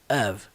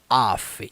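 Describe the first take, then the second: First: The word ends with a V sound. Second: The word ends with an F sound. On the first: The speaker calls it right. "é of. Somzinho do V" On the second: The speaker calls it wrong. "Não é off"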